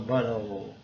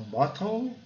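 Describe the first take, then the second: First: American "bottle" with open A-like vowel and tapped T; American pronunciation. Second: British "bottle" with a sounded T; British pronunciation. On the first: Teacher shows how Americans say it, American accent. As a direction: say "bottle" American-style, T softened to a tap. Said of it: "os americanos falam bottle". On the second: Teacher shows how Britons say it, British accent. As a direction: say "bottle" British-style, rounded O and true T. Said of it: "os britânicos falam bottle". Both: Shown as a demonstration.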